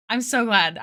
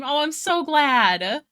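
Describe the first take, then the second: First: Said in the usual way. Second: Excited. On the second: Real, not acted. Happy viewer came.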